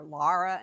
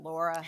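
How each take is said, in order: First: Laura said the mother's way, open LAH-ra; family pronunciation of Laura. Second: Laura with a rounded LOR first syllable; usual pronunciation of Laura. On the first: Mother explains her own name for daughter, Laura as LAH-ra. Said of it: "I call her Laura instead of Laura". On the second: Mother quotes others' name for her daughter, Laura as LOR-uh. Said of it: "instead of Laura". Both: Shown as a demonstration.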